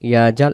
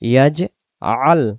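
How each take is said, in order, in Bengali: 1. মাঝের ধ্বনিগুলো আটকানো ছাড়াই একসাথে মিশে যায়। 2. গলার আটকানো মাঝের দুই অক্ষরকে আলাদা করে। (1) "ইয়াজাল ইয়াজাল এমন না হয়" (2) "উচ্চারণ হবে ইয়াজ আল"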